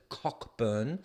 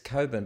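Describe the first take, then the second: First: The first syllable is said as 'cock'. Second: The first syllable is said as 'co'. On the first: The speaker calls it wrong. "I know you pronounce it Cockburn" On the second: The speaker calls it right. "but it's Coburn"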